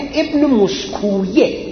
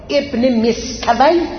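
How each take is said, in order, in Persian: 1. نام با یک هجای آخر اضافی «-یه» تمام میشه. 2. نام کوتاه تمام میشه، بدون هجای آخر.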